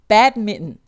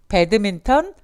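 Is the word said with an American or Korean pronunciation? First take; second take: American; Korean. First: It is said with an American English pronunciation. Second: It is said with a Korean-style pronunciation. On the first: The speaker calls it right. "발음은 badminton" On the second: The speaker calls it wrong. "미국 사람들은 배드민턴이라고 발음 안 하죠"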